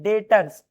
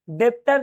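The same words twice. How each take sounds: First: डेटर्स with a silent b, said as "detters"; right pronunciation. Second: डेप्टर with the b sounded, as a wrong example; wrong pronunciation. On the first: Teacher gives students the correct form, b silent. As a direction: say डेटर्स with no b sound. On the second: Teacher shows students the wrong way, sounding the b. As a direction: say डेप्टर with the b pronounced. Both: Shown as a demonstration. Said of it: "बी silent है".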